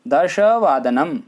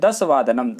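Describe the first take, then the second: First: The first word begins with an 'sh' sound. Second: The first word begins with a plain 's' sound. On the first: The speaker calls it right. "देखिए यहाँ उच्चारण कीजिए दश" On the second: The speaker calls it wrong. "कई बार शिक्षा शिक्षार्थी उच्चारण करते समय कहते हैं"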